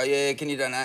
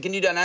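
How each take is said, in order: First: Low-key, half-hearted phone appeal; imitating a listless call centre worker; un-revved sales pitch. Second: Mildly livelier phone appeal; imitating a worker trying to rev up; slightly revved up. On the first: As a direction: ask for money with little push. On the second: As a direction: put a little more push into the ask. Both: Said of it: "You need to rev it up".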